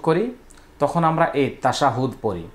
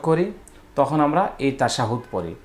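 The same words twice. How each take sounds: The two takes are said the same way.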